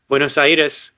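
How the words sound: It is said with an Argentine pronunciation. "I'm pronouncing them the Argentina way"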